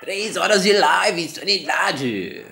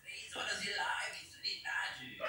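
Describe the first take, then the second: First: Drawn-out excited shout. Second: Whispering. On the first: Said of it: "repeated, then whispered". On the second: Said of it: "repeated after loud take". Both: Shown as a demonstration.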